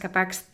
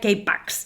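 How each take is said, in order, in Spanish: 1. El título empieza con un sonido 'ka' en español. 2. El título empieza con un sonido 'kay' en inglés. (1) "la película que mencionas" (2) "yo la pronunciaría K-Pax, por esto del K-pop"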